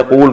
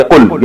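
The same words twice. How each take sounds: First: قول with a long oo, qool; long form. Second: قل with a short u, qul; short form. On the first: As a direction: lengthen the vowel in قول. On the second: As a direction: keep the vowel brief in قل. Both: Shown as a demonstration. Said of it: "قول کو بنا دیا قل".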